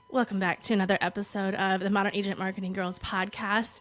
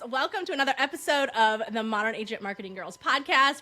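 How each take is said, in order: First: It is said toned down, imitating the guest. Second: It is said in her own chipper voice.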